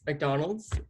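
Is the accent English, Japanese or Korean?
English. It is said in an English accent.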